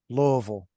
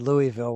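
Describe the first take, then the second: First: The word is mumbled, as if through marbles. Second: The word is said clearly, every syllable distinct. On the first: The speaker calls it right. "you got to pretend that you have a mouthful of marbles" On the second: The speaker calls it wrong. "Don't say Louisville when you get here"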